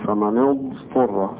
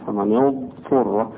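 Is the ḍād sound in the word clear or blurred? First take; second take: clear; clear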